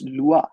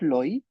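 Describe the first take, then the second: First: The vowel sounds like wa. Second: The vowel sounds like oy. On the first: The speaker calls it right. "It's लुआ" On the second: The speaker calls it wrong. "L ओ आई is not लॉई"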